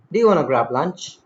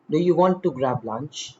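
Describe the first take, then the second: First: "wanna" run together with no T; casual spoken form. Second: "want to" in two words with the T kept; careful, separate "want to"; full written form. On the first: Teacher showing spoken English, casually reduced. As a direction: slide through "wanna" as one word. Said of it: "In spoken English". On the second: Teacher reading the written version, carefully articulated. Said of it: "In written English". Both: Shown as a demonstration.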